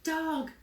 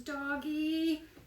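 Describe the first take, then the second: First: It is said as a plain, pointing-out comment. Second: It is said as a pleading, asking request. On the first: Look, there is a dog out there. "I'm just looking at the dog, there's a dog out there" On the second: Bring me the dog so I can pet it. "to actually bring you the dog to pet"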